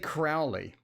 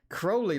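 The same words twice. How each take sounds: First: The name does not rhyme with holy. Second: The name rhymes with holy. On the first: The speaker calls it wrong. "At least I don't say Crowley" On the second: The speaker calls it right. "Crowley like holy. Rhymes with holy"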